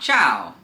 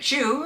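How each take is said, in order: First: The syllable is said with an 'ow' vowel. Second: The syllable is said with an 'oo' vowel. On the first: The speaker calls it right. "the actual way makes sense" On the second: The speaker calls it wrong. "I naturally say chew"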